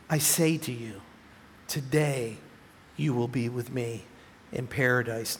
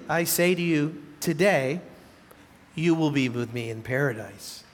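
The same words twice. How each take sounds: First: The pause comes before the word today. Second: The pause comes after the word today.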